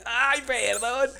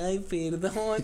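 First: Very slow, higher, drawn-out ay perdón; hammed-up sheepish ay perdón; sheepish apology. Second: Slow, drawn-out sheepish apology; mock sheepish ay perdón. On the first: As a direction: stretch out a guilty apology, higher. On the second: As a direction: apologize slowly, like a kid caught out. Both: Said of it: "Y yo así como de".

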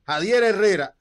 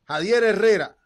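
Both takes have the same delivery.

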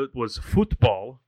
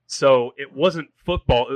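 First: "football" drawn out as "foot-bol"; foreign-style FOOTBALL. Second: Said in the usual way. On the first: Shown as a demonstration. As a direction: say "football" slowly as "FOOT-bawl", like soccer fans abroad. Sets soccer 'futbol' against football.

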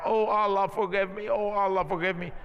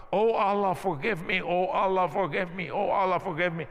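First: Mild mock shout, the Oh lines pushed a bit harder each time; retold rising shout. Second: Retold shouting prayer. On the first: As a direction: retell the clerk crying out, building only slightly. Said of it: "started shouting higher and higher". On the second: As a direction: imitate a frightened clerk crying out for forgiveness, half-voiced. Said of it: "the guy starts shouting".

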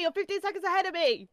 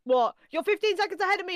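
First: Indignant repeat. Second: Fast, high and loud protest; high-pitched cry of betrayal; outraged yelp. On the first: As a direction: say it again, still outraged. Repeats the protest, slower. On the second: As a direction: blurt it out fast in disbelief. Live match, stream ahead. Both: Real, not acted.

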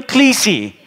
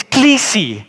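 First: Klisi, repeated for the congregation to echo. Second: Klisi, stressed on the first syllable; the Greek word klisi, spoken slowly for the congregation. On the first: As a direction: say klisi cleanly, stressed on the first syllable. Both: Shown as a demonstration. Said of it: "Say with me".

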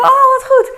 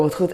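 First: Very high, loud gushing "Oh, wat goed"; fake enthusiasm. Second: Said in the usual way. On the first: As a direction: squeal "wat goed" with put-on delight. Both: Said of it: "Ik dacht".

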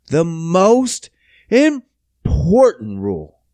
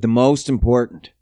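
First: "most important" drawn out slowly, word by word; slow, heavy stress on "most" and "important"; emphatic repeat. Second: Said in the usual way. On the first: Real, not acted. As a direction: stretch out "most important" with big pauses.

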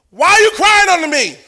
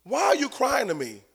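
First: God's question thrown out, higher and emphatic; voicing God, a raised challenging question; booming question. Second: Same question dropped much softer; voicing God, a soft probing repeat; hushed repeat. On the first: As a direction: call it out like a divine rebuke. God questioning Moses, said twice. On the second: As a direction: pull back and ask it almost under the breath. God questioning Moses, repeated softly.

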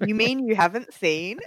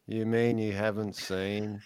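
First: Incredulous, rising question; surprised. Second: Slow, flat, bored drawl. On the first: Acted. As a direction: ask in disbelief, a bit higher. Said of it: "both go really, in a really bored voice". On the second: Shown as a demonstration. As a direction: say it like you couldn't care less. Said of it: "in a really bored voice".

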